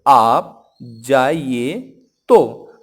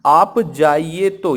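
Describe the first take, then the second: First: आप, जाइए, तो broken apart, very slow; तो set apart after a long pause; pause before तो. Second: Slow, loud आप जाइए तो in one run; तो attached straight after जाइए; आप जाइए तो joined. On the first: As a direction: stretch आप जाइए, stop, then a loud तो. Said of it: "यहाँ मैंने बोला है". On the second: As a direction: say आप जाइए तो drawn out but unbroken. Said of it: "जैसे अब मैं बोलूँ". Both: Shown as a demonstration.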